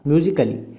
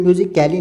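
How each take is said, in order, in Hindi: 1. अंत से पहले कोई अतिरिक्त स्वर नहीं बोला जाता। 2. अंत से पहले एक अतिरिक्त स्वर बोला जाता है। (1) "ए साइलेंट" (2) "म्यूजिक कैली नहीं कहा"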